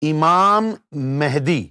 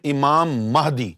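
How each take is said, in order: First: The second word begins with a 'meh' sound. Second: The second word begins with a 'mah' sound. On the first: It names one linked to the moon. The speaker calls it right. "लफ्ज है इमाम मेहदी" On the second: It names one who gives guidance. The speaker calls it wrong. "हमारे ज्यादातर उलमा उसको pronounce करते हैं इमाम महदी"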